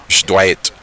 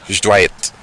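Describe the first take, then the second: Both takes have the same delivery.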